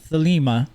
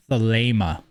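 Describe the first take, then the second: First: Thelema with an EE in the middle; Thelema, middle syllable rhyming with "see"; wrong pronunciation. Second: Thelema with a long AY in the middle; Thelema, middle syllable rhyming with "lay"; correct pronunciation. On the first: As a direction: say Thelema as thuh-LEE-muh. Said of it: "It is not Thelema". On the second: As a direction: say Thelema as thuh-LAY-muh. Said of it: "that is the proper pronunciation of it". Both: Shown as a demonstration.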